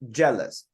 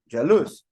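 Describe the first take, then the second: First: The stress is on the first syllable. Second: The stress is on the second syllable. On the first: The speaker calls it right. "the stress is on the first part" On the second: The speaker calls it wrong. "otherwise it would be jealous, jealous, if it would be on the second part"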